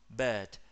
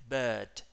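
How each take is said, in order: Both takes have the same delivery.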